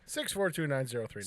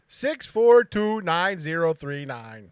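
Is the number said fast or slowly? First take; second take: fast; slowly. First: The number is said at normal speed. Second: The number is said slowly.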